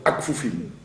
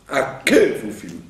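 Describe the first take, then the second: First: The k runs straight into f with no vowel. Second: A short vowel is heard between k and f. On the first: The speaker calls it wrong. "Il ne faut pas dire Zokef lechol akfufim" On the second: The speaker calls it right. "Puisqu'il est au début d'une syllabe"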